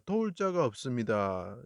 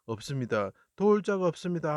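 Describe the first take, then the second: First: Said in the usual way. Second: High pleading cry to God. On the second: Acted. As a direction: call out in anguish, voice lifted high. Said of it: "하고 크게 부르짖으실 때".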